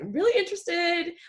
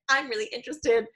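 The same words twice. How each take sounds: First: It is said in a polite, respectful tone. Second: It is said in a casual, offhand tone.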